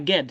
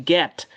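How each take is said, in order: First: "get" ending in a d sound, ged; wrong voiced ending. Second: "get" closed on a clean t; correct t ending. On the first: Teacher rejecting the wrong word, voiced d ending. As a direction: soften the end of "get" into a wrong d. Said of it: "Non, c'est pas get". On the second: Teacher correcting the word, voiceless t ending. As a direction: finish "get" with a t, not a d. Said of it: "c'est get". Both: Shown as a demonstration.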